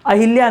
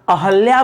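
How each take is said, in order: First: The second syllable has an 'i' vowel: a-hil-ya. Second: The second syllable has an 'a' vowel: a-hal-ya. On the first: The speaker calls it wrong. "अहिल्या नहीं" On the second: The speaker calls it right. "अहल्या बन गई। ... ये दोस्तों सही होगा।"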